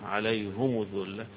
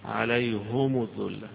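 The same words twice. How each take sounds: No difference in how they are said.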